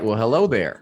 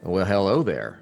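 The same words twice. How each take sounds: First: It is said in the speaker's ordinary voice. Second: It is said in an imitated villain's voice.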